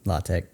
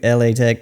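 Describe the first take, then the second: First: LA is said as one syllable. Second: LA is spelled out as two letters. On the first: This is how the school is actually called. The speaker calls it right. "it's La Tech" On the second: This is how other people say it. The speaker calls it wrong. "People say"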